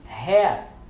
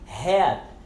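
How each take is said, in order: First: The final T is left silent. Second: The final T is left silent.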